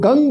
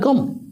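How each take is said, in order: First: The syllable ends open with an ng sound. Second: The syllable ends with the lips closing on m. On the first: The speaker calls it right. "वही गणपति के बीज मंत्र का सही उच्चारण है" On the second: The speaker calls it wrong. "सामान्य दृष्टि से देखा जाए तो उसका उच्चारण होता है गम, लेकिन उसका उच्चारण गम नहीं है"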